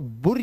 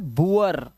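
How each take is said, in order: First: The vowel is a single short oo. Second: The vowel glides from oo into uh. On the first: The speaker calls it wrong. "इसे बुर या बोर मत पढ़ लेना" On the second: The speaker calls it right. "उआ की आवाज है"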